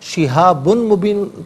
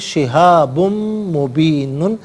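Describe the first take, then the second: First: A clear n sound comes before mubin. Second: A nasalized m sound comes before mubin. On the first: The speaker calls it wrong. "शिहाबुन मुबीन पढ़ना गलत है" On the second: The speaker calls it right. "मीम की आवाज़ को गुन्ने के साथ अदा करेंगे"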